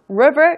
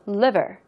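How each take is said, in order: First: The word begins with an R sound. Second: The word begins with an L sound. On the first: It would mean a river instead of the organ. The speaker calls it wrong. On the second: It means the organ. The speaker calls it right. "L 발음 유의하시면서"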